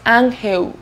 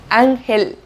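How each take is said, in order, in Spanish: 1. El sonido final no es una L clara. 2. El sonido final es una L clara. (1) "No es ángel" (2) "es ángel"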